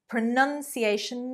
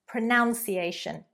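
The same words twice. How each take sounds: First: The second syllable sounds like 'nun'. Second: The second syllable sounds like 'noun'. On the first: The speaker calls it right. "but the noun is pronun" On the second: The speaker calls it wrong. "not pronunciation"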